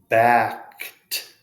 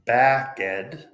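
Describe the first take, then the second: First: The word is said with one syllable. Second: The word is said with two syllables. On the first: The speaker calls it right. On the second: The speaker calls it wrong.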